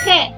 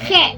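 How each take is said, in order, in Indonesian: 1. G adalah bunyi serak di tenggorokan. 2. G adalah bunyi serak di tenggorokan.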